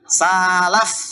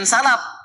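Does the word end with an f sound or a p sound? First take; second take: f; p. First: The word ends with an f sound. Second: The word ends with a p sound. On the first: The speaker calls it right. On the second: The speaker calls it wrong. "Bukan salaf. F, bukan P"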